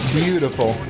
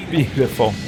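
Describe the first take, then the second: No difference in how they are said.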